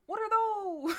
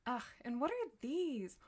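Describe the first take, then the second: First: High, loud yelled meme line; meme shout. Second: Said in the usual way. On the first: Pretend. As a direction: bellow it like the viral meme. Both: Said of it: "My brain has been poisoned by the internet".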